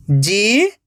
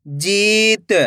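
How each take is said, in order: First: जीत split into जी, pause, त; drawn-out जी rising, then त alone; syllable by syllable. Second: जीत joined as one word with long ई; blended word. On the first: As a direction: sound out जीत in two separate parts. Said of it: "एक एक अक्षर का उच्चारण करना है". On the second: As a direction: read जीत whole, stretching the जी. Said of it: "खींच के पढ़ना है". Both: Shown as a demonstration.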